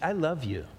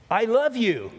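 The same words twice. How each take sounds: First: It is said in a warm, sincere tone. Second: It is said in an angry tone. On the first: The love is meant sincerely. "That tone of voice, that's pretty good" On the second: The words mean nothing; anger comes through. "if you're angry at somebody and you go"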